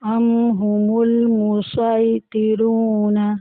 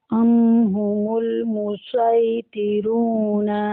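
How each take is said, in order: No difference in how they are said.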